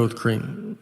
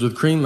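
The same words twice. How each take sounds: First: CREAM said low and soft as an answer; deadpan confirmation. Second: CREAM lifted as a question; questioning repeat. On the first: Customer answering the barista's question, deadpan confirmation. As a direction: confirm it quietly, dropping the voice on CREAM. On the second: Barista double-checking a customer's order, questioning repeat. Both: Retold or imitated.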